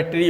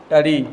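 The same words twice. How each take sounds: First: ट्री साफ़ ट्र के साथ; ट्री में र साफ़ बोलें; सुधारा उच्चारण. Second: ट्री को टडी बोलें, र की जगह ड; ट्री ढीले ढंग से टडी जैसा; गलत उच्चारण. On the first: (ट्री का साफ़ ट्र उच्चारण) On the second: (ट्री को टडी जैसा बोलना) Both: Shown as a demonstration. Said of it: "pronunciation पे क्या जाते हो".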